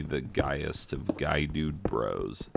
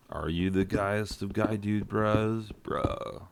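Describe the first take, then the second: First: Said in the usual way. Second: Higher bro voice, trailing into an unvoiced "bro"; put-on guy-dude-bro voice; mock dude bro. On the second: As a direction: play a dude bro quizzing his buddy. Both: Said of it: "Hey, guy dude bro".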